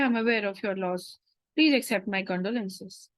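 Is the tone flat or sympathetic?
flat. The tone is flat and businesslike. The speaker calls it wrong. "You cannot go, okay"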